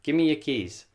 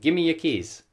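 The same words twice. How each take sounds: First: The word 'your' is reduced to 'ya'. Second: The same.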